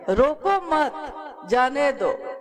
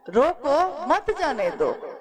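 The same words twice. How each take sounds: First: The pause comes after 'roko mat'. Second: The pause comes right after 'roko'.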